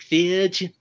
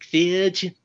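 First: The name is said with an exaggerated foreign accent. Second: The same.

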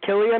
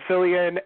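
First: The name begins with a hard K sound. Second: The name begins with a soft S sound. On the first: The speaker calls it right. "you're supposed to say it with a hard K" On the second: The speaker calls it wrong. "I said Cillian"

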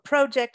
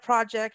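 First: The word is said with a Canadian accent. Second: The word is said without a Canadian accent.

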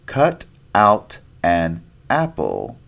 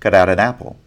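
First: Each word is said separately without linking. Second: The words run together with flapped t sounds.

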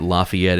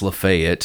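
First: It is said the usual outsider way. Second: It is said the local Tennessee way. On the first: The speaker calls it wrong. "it's not Lafayette" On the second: The speaker calls it right. "it's Lafayette"

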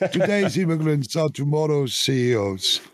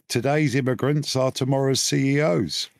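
First: It is said in a thick Swiss-German accent. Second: It is said in the speaker's ordinary accent.

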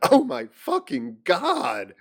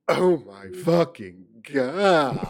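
First: It is read in a plain way. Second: It is read in a seductive way.

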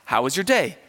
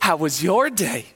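First: It is said in a normal voice. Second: It is said in a cutesy dog voice.

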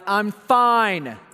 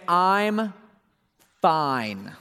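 First: It is said in an annoyed, angry tone. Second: It is said in a calm, plain tone.

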